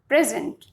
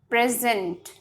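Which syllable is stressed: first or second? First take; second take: first; second. First: The stress is on the first syllable. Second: The stress is on the second syllable. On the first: It means being at a particular place. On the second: It means presenting or giving something.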